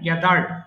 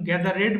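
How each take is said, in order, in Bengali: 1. শেষের অংশটি কোনো বাড়তি শব্দাংশ ছাড়াই যুক্ত হয়। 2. শেষের অংশটি একটি বাড়তি শব্দাংশ হিসেবে উচ্চারিত হয়। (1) "হ্যাঁ গ্যাদার্ড" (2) "গ্যাদারেড বলা যাবে না কিন্তু"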